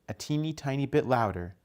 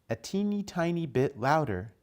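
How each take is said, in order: The two takes are said the same way.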